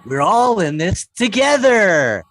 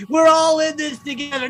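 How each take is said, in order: First: Loud, drawn-out mock ad slogan; hammed-up commercial voice, stretched final word; pandemic commercial slogan. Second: High, loud sneering echo; mocking repeat. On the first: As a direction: proclaim it slowly like a sappy advert. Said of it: "we used to hear in commercials". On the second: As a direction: throw the slogan back in derision.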